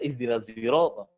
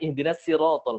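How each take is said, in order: First: Siratal begins with a sound blended toward z. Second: Siratal begins with a plain, light s sound. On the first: This is how the people of Kufa read it. "Orang Kufah baca ... pakai zai ismam" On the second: This is how the people of Mecca read it. "Orang Mekah bacanya ... Pakai sin"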